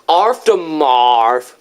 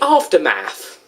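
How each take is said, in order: First: It is said in a British accent. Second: It is said in an American accent. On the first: The speaker calls it wrong. "we pronounce it aftermarv" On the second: The speaker calls it right. "you Americans say aftermath"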